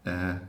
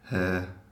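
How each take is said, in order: First: The word begins with a vowel, h dropped. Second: The word begins with an h sound. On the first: The speaker calls it wrong. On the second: The speaker calls it right.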